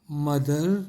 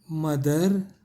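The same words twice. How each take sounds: The two takes are said the same way.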